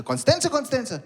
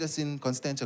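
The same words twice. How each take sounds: First: High incredulous repeat; mocking disbelief. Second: Low, soft, matter-of-fact reply; quiet answer. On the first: Call centre agent making fun of caller's suburb, incredulous. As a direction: echo it higher, making fun of him. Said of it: "at the call center making fun of me". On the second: Retold or imitated. Caller tells call centre his suburb, low and quiet. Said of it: "I said".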